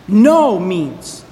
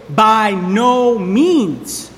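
First: "No" hit hard, "means" falling away; stress on no. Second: "by no means" stretched out very slowly, word by word; slow emphatic quote. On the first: Pastor hammering the negation for the congregation, stress on "No". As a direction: punch the word "No", then drop on "means". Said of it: "strong adversative no". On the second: Pastor showing the congregation the phrase, slow and weighty. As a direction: drag out "by no means" so each word lands. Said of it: "strong adversative no in the phrase". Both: Shown as a demonstration.

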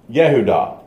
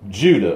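First: "Yehudah" said the Hebrew way, in three syllables; Hebrew pronunciation. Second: Said in the usual way. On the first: Shown as a demonstration. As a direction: say Yehudah as yeh-hoo-DAH. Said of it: "is how it's pronounced in the, in the Hebrew". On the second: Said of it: "This is my, my pronunciation".

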